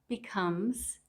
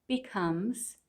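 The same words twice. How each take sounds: No difference in how they are said.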